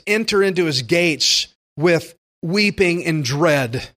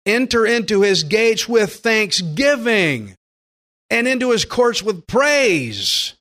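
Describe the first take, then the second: First: Slow, somber wrong reading of the verse; mock mournful misquote. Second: Higher, louder, slow and jubilant; joyful scripture reading. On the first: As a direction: read it as if entering with dread, deliberately wrong. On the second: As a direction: proclaim the verse with thanksgiving. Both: Shown as a demonstration. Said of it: "No, we're, we should be past that".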